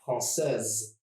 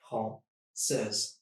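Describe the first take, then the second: First: Said in the usual way. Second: Française in two separated syllables; split into syllables. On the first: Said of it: "it would look like this". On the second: Shown as a demonstration. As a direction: pause between the syllables of Française. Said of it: "Just two syllables".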